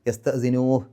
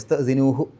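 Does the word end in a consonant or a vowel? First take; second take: consonant; vowel. First: The word ends in a bare consonant. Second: The word ends in a short vowel. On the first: The reading stops at this word. "നിർത്തുകയാണെങ്കിൽ ... ആ ഹാ ഇന് സുക്കൂനിട്ടിട്ടാണ് നിർത്തുക" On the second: The reading continues without stopping. "നീട്ടാൻ പാടില്ല. അപ്പോൾ യസ്തസിനൂഹു എന്നേ പറയുള്ളൂ"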